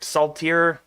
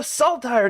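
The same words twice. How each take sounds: First: "Saltire" ending in a long ee sound; SALT-eer. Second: "Saltire" ending in a long eye sound; SALT-ire. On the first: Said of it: "We're gonna call it Saltire". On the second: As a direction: say "Saltire" with the ending rhyming with fire. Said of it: "sounds a lot better and it's easier to pronounce". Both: Shown as a demonstration.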